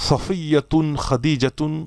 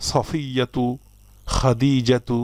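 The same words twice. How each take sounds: First: সফিয়াতুন and খাদিজাতুন ending in a clear -un, the forbidden tanwin; sounding the wrong tanwin ending on সফিয়াতুন, খাদিজাতুন for students; wrong nunation. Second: সফিয়াতু, খাদিজাতু ending on a bare -u with no final n; correct single damma. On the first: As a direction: say সফিয়াতুন, খাদিজাতুন with the final n sounded, as the mistake to avoid. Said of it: "এভাবে পড়া যাবে না". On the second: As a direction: close সফিয়াতু and খাদিজাতু on a clean -u. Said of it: "পড়তে হবে". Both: Shown as a demonstration.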